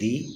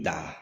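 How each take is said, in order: First: The vowel is a long 'ee' sound. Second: The vowel is a short 'uh' sound. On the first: "T H E दी" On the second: "T H E दा"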